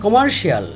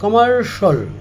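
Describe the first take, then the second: First: The ending is said as two syllables, shee-al. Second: The ending is said as one syllable, shal. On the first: The speaker calls it wrong. "আমরা বলে থাকি" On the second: The speaker calls it right. "এটা হবে"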